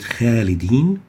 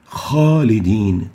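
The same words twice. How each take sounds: First: The first sound is light, without velarization. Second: The first sound is heavy and velarized. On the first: The speaker calls it wrong. "we don't pronounce it" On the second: The speaker calls it right. "but ... We give it tafkhim"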